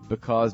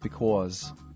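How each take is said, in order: First: It is said in a standard accent. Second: It is said in a New Jersey accent.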